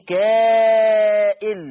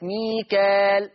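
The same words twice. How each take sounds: First: ميكائيل loud and very slow, a broken hamza after the long a; Mika'il with hamza. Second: ميكال with a plain long a and no hamza after it, slow; Mikal without hamza. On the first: Teacher demonstrates Warsh reading of ميكائيل, loud and drawn out. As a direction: belt out ميكائيل with a clear glottal stop. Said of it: "فيقرأ ورش بالهمزة". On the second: Teacher demonstrates Hafs reading of ميكال, slow long vowel. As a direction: stretch ميكال, no glottal stop. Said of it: "ما فيش همزة بعد الألف". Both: Shown as a demonstration.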